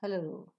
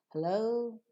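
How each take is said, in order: First: HELLO falling at the end; answering hello. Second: HELLO rising at the end; HELLO lifted, awaiting an answer; questioning hello. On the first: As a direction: answer with hello, pitch dropping. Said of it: "is your answer". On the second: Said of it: "is the speaker's question". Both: Shown as a demonstration.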